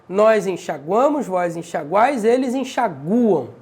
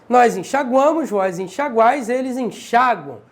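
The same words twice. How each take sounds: No difference in how they are said.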